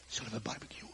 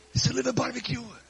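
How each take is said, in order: First: Soft, low, casual offer; low-key invitation. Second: High, playful offer; cheery invitation. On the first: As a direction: suggest it quietly, as a surprise. Jesus casually invites, first take. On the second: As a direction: pitch it up as a fun suggestion. Repeats invitation brightly for laugh. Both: Acted.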